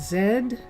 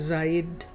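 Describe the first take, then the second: First: The vowel rhymes with 'said'. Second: The vowel rhymes with 'aid'. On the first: "I'm saying Zed for said" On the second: "as opposed to Zaid for aid"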